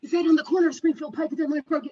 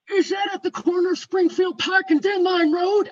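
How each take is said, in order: First: Quick, higher-pitched aside to a colleague; fast acted check, less forceful; hurried relay. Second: High, loud imitated gentleman; loud, emphatic questioning, put on as the caller; insistent caller. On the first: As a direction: rattle the question off to someone nearby. Teller relays question to office colleague. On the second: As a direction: demand confirmation in a raised voice.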